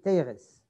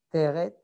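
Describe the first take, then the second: First: It is said in a Lithuanian accent, ending in s. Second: It is said without a Lithuanian accent, ending in t.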